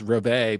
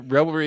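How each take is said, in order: First: It is said with no R before the final vowel. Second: It is said with an R before the final vowel. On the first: The speaker calls it right. "actually pronounced reveille" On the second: The speaker calls it wrong. "revelry is actually pronounced reveille"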